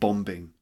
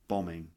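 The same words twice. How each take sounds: First: The b in the middle is pronounced. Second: The b in the middle is silent. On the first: The speaker calls it wrong. "not bombing" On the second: The speaker calls it right. "So that's bombing"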